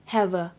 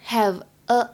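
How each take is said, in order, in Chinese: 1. 这两个词是连在一起说的。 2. 这两个词是分开说的。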